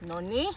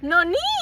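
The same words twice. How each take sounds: First: It is said in a disappointed tone. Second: It is said in a happy tone.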